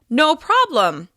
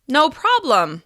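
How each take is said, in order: Both takes have the same delivery.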